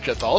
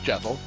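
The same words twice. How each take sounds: First: The last syllable carries strong emphasis. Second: The last syllable carries no emphasis. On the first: The speaker calls it wrong. "people think it's Jethal. It's not Jethal" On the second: The speaker calls it right. "There's no exotic emphasis on the rear"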